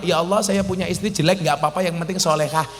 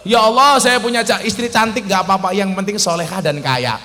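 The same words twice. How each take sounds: First: Quick, softer, modest little prayer; timid prayer asking for too little; wrong prayer. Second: Confident prayer asking for the maximum; right prayer. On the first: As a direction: rattle off a meek minimal wish. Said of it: "Ah, salah". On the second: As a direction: ask big and confidently. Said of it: "Nah, keren". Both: Shown as a demonstration.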